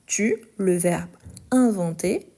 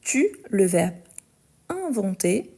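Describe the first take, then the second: No difference in how they are said.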